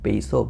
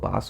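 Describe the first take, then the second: First: The vowel sounds like the one in 'base'. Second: The vowel sounds like the one in 'bah'.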